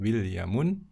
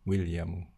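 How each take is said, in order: First: The name ends with an added 'un' sound. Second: The name ends without any added 'un' sound. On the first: The speaker calls it wrong. "bukan Williamun" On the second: The speaker calls it right. "tetapi William"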